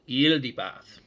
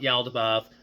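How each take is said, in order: First: The first syllable has an 'i' vowel, 'yil'. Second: The first syllable has an 'a' vowel, 'yal'. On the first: The speaker calls it right. "pronounce it with an il, like with an e" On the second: The speaker calls it wrong. "it's not going to really work if you if you if you pronounce it with the Y"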